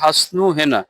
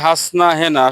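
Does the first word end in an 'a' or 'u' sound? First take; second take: u; a. First: The first word ends with a 'u' sound. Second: The first word ends with an 'a' sound. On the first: This is the proper form of the name. The speaker calls it right. "আসলে সঠিক উচ্চারণটা হবে হাসনু হেনা" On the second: This is how people commonly say it. The speaker calls it wrong. "আমরা এটারে বলি হাসনা হেনা"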